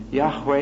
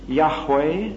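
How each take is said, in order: First: "Yahweh" repeated as YAH-way, first syllable stressed. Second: "Yahweh" said as YAH-way, first syllable stressed; Yahweh pronounced. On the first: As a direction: echo "Yahweh" as YAH-way, a touch lighter. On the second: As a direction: give "Yahweh" a clear YAH then a light way. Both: Shown as a demonstration. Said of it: "make it Yahweh".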